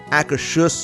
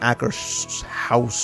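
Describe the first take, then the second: First: The last syllable sounds like 'hoos'. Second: The last syllable sounds like 'house'. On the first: The speaker calls it right. "So it is Akershus" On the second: The speaker calls it wrong. "not Akershouse or something like that"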